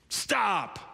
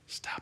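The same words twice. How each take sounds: First: The word is shouted loudly and sharply. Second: The word is said softly and gently. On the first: The correction comes from someone far away. The speaker calls it wrong. "it's not gonna be a shout" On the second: The correction comes from someone close by. The speaker calls it right. "Let me correct my tone here"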